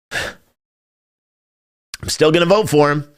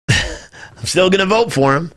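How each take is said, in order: First: Very slow, drawn-out, weary sigh through the words; sighing reluctance. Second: Slow, said through a laugh; laughing admission. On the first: To his stream audience, a reluctant admission, slow and sighing. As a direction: resign yourself to it, stretching each word. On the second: To his stream audience, repeating the admission with a rueful laugh. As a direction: laugh it off while admitting it. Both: Real, not acted.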